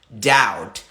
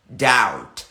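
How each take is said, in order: Both takes have the same delivery.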